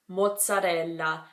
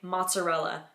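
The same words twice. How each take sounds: First: It is said with an Italian pronunciation. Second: It is said with an English pronunciation. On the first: "if you were to say this in Italian, you would say mozzarella" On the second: "in English we would say mozzarella"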